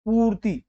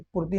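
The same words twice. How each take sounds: First: पूर्ति with a long, higher "poo"; पूर्ति said as POOOR-ti; correct long vowel. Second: पूर्ति with a short "pu"; पूर्ति said as PUR-ti, quickly closed; wrong short vowel. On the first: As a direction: stretch and lift the पू in पूर्ति. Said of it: "पू यानी कि बड़ा होगा". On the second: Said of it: "पूर्ति नहीं". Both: Shown as a demonstration.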